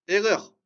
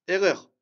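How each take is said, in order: The two takes are said the same way.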